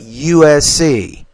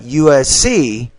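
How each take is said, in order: First: All the letters are stressed equally. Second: The letters are stressed unequally. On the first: The speaker calls it right. "you have to equally stress all letters" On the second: The speaker calls it wrong. "not U S C"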